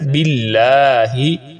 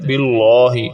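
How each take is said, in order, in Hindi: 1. 'Allah' में L बारीक और पतला है। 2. 'Allah' में L पुर और भरा हुआ है। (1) "तो अल्लाह के लाम को हम बारीक पढ़ते हैं। ... तो कैसे पढ़ना है?" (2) "और इस तरह पढ़ना गलत है"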